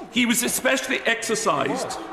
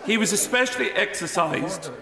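No difference in how they are said.

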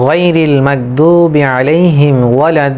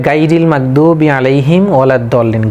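First: "গাইরিল" with heavy throaty "gho", long-held vowels in "ওয়ালাদ্দল্লিন"; correct Quran recitation. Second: Quick, unstretched recital with plain "gaa" in "গাইরিল"; common mispronunciation. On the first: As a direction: recite it measured, stretching "ওয়ালাদ্দল্লিন" at length. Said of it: "তাহলে আমাদের কিভাবে বলতে হবে". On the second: Teacher quoting what many say, mispronounced light gaa in "গাইরিল". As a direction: run through it, "গাইরিল" opened on a thin open gaa. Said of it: "অনেকেই বলে". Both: Shown as a demonstration.

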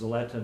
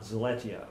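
First: Zaletta, ending in a plain "ta"; correct name pronunciation. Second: Zaletia, with an "ee-a" ending; mistaken name pronunciation. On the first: Interviewer spelling out the name for the record, correct pronunciation of Zaletta. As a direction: say Zaletta with no "ee" before the last "a". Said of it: "but pronounced Zaletta". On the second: Interviewer warning against a misreading, mispronounced Zaletia. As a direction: say Zaletia as spelled, sounding the "i" before the "a". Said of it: "not Zaletia". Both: Shown as a demonstration.

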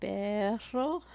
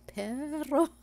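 First: Said in the usual way. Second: Perro with an attempted rolled R, said higher; trying to roll the R. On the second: Shown as a demonstration. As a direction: try to trill the R in perro. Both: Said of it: "I don't really pronounce my R's very well".

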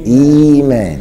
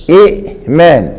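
First: إيمان with a long, unbroken "ii"; hamza turned ya. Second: إيمان with a glottal stop after the first vowel; original hamza pronounced. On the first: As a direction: glide through إيمان as "ii-maan", no glottal stop. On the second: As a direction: break إيمان sharply at the hamza, "i'-man". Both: Shown as a demonstration. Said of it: "بقلب الهمزة ياء".

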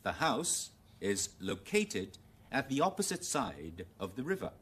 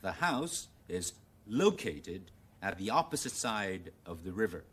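First: Slow, careful British model reading; British English. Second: Slow, careful American model reading; American English. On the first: Teacher reading example sentence, British English. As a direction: read it in British English, loCATEd stressed late. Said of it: "用英語先". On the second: Teacher rereading example for contrast, American English. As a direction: read it in American English, LOcated stressed early. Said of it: "而家試下用美語嚟讀啦". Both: Shown as a demonstration.

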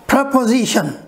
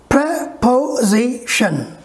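First: Said in the usual way. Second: Preposition very slow, pre, po, zi, tion; syllable by syllable. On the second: Shown as a demonstration. Teacher asking how many strokes, very slow segmented word. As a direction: split Preposition into four spaced beats. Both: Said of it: "Four strokes".

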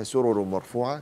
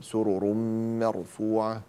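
First: Said in the usual way. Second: Sung, سرر مرفوعة joined by a long held m; sung, drawn-out ghunna on the م of مرفوعة; merging with nasal hum. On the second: Shown as a demonstration. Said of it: "هذا إدغام بغنة".

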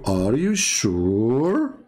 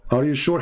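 First: Slow drawn-out question. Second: Said in the usual way. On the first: Shown as a demonstration. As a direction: stretch "Are you sure?" very slowly, rising. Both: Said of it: "When you hear ... saying to you".

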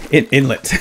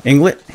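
First: Inlet said cleanly "in-let", no g; corrected pronunciation. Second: Inlet? said as "Inglet" with a g, rising; Inlet? said wrongly as "Inglet"; mispronounced name. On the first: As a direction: fix it: In-, inlet with a plain n. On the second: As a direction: question your own "Inglet" for Inlet?. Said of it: "I was talking about Bleak Inlet". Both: Real, not acted.

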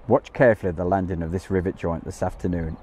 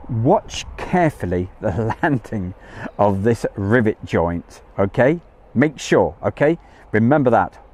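First: Said in the usual way. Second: Measured, weighty heads-up; emphatic instruction. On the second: Real, not acted. Stressing an instruction to viewers.

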